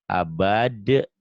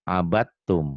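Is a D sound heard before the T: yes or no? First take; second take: yes; no. First: A D sound is pronounced before the T. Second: The D is dropped, going straight to T.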